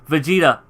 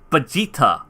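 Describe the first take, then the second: First: The name begins with a V sound. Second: The name begins with a B sound. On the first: The speaker calls it right. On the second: The speaker calls it wrong.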